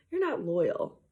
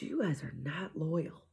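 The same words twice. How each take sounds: First: Said in the usual way. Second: Hushed, voiceless whisper of a scolding. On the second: Retold or imitated. Mom whispering to her kids that they are not loyal. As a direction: breathe the accusation in a whisper.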